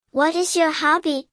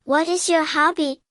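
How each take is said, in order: Both takes have the same delivery.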